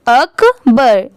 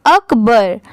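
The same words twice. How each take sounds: First: Akbar very slowly as 'uk... bur'; slow, separated अक-बर; syllable by syllable. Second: Said in the usual way. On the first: Shown as a demonstration. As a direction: break Akbar in two for a beginner. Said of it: "आप ऐसे easily पढ़ सकते हैं". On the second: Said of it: "पूरा क्या हो जाएगा".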